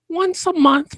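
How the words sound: It is said in a put-on female voice.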